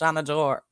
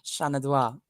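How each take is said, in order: First: The word ends with a 'dor' sound. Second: The word ends with a French-like 'dwa' sound. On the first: The speaker calls it right. "It's Shanador" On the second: The speaker calls it wrong. "Very French of you"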